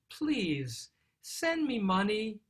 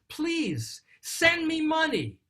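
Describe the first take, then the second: First: It is said in a gentle, pleading tone. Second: It is said in an upset, demanding tone.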